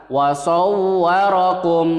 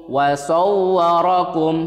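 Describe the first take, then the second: No difference in how they are said.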